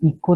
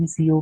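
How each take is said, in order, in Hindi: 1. अक्षरों को मिलाकर एक शब्द की तरह बोला जाता है। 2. हर अक्षर अलग-अलग, एक-एक करके बोला जाता है। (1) "हम इको नहीं उसको कह रहे" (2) "ईसीओ कह रहे हैं"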